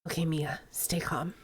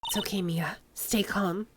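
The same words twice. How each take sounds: First: Very soft whisper to herself; hushed self-reassurance; inner whisper. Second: Soft whisper to herself; hushed self-reassurance; inner whisper. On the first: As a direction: barely breathe it to calm down. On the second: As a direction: whisper it to steady your nerves. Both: Acted. Inner thought calming herself.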